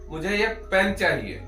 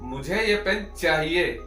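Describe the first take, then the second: First: The stress is on the word पेन. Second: The stress is on the word चाहिए. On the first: It answers what is wanted. "आपको अ, क्या चाहिए?" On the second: It stresses that the pen is wanted. "चाहिए पे देना हो"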